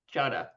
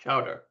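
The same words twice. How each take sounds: First: It is said in a Boston accent, dropping the R. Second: It is said with a clearly pronounced final R. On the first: The speaker calls it right. "You gotta say it like chowder" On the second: The speaker calls it wrong. "not chowder"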